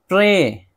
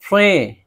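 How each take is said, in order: No difference in how they are said.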